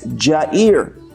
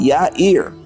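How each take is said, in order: First: The name begins with a J sound. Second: The name begins with a Y sound. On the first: The speaker calls it wrong. "they put a J. So it would be pronounced as Jair. It's not Jair" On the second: The speaker calls it right. "the Hebrew is with a Y"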